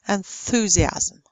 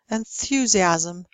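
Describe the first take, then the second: First: No y sound follows the th. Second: A y sound follows the th.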